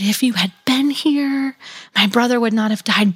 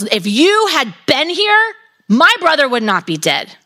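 First: It sounds gentle and trusting, not accusing. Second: It sounds angry and accusing.

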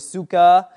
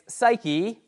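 First: The word is pronounced following the Greek letters. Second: The word is pronounced the usual English way.

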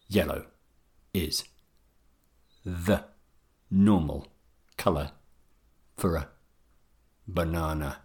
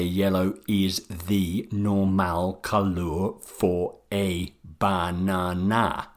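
First: The unstressed vowels are reduced to a weak schwa. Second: The unstressed vowels are given full sounds. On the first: The speaker calls it right. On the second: The speaker calls it wrong. "Make sure you don't say"

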